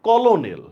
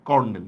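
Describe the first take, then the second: First: It is said as kol-o-nel, three syllables. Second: It is said as ker-nel, two syllables. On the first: This is how the word is spelled. "লিখছি কিন্তু কলোনেল" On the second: This is how the word is actually pronounced. "উচ্চারণটা হইতেছে কিন্তু one kind of এভাবে C ও আর N E এল"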